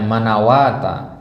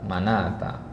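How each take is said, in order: First: A w sound is read inside the word. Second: No w sound is read inside the word. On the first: The speaker calls it wrong. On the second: The speaker calls it right.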